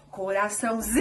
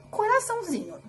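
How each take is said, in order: First: "Coraçãozinho" with ZI held long; prolonged ZI in a called-out CORAÇÃOZINHO; calling out, stretched ZI. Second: Said in the usual way. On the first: Shown as a demonstration. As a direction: call "Coraçãozinho", drawing out the ZI. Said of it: "foi o zi". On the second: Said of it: "se eu fosse falar".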